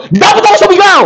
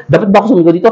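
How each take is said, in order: First: Sudden forced shout. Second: Said in the usual way. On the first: Retold or imitated. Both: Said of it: "bigla ka na lang".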